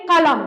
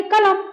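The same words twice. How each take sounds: First: कलम with a back-of-throat q; dotted pronunciation. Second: कलम with an ordinary front k; undotted k at the start of कलम; contrasted pronunciation. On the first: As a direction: say कलम as Urdu "qalam". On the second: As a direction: say कलम as everyday "kalam". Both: Shown as a demonstration. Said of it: "उच्चारण में अंतर आ रहा है".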